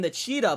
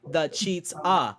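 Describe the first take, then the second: First: The name is said as one smooth ordinary word. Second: The name is split, stressing 'cheats' then 'ah'. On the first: It is the ordinary nickname for a fast runner. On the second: It blends cheetah with cheater for someone who cheats.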